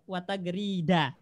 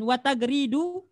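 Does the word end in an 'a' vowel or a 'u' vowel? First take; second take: a; u. First: The word ends with an 'a' vowel. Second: The word ends with a 'u' vowel. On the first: I woke up along with the birds' chirping. The speaker calls it right. "Wajib dibaca nasab" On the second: The birds' chirping also woke up. The speaker calls it wrong. "Gitu konsekuensinya kalau dibaca rofa"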